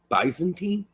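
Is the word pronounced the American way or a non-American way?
non-American. The word has a non-American pronunciation. "Americans don't say Byzantine"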